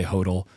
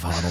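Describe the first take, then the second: First: "hodl" said with a long O, HOH-dl; own pronunciation of hodl. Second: "hodl" said with a short O, HODD-l; the other pronunciation of hodl. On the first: Host confessing his own habit, long-O "hodl". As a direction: say "hodl" to rhyme with yodel. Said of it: "I also say hodl instead of hodl". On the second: Host citing the version he avoids, short-O "hodl". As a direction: say "hodl" to rhyme with model. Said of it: "instead of hodl". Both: Shown as a demonstration.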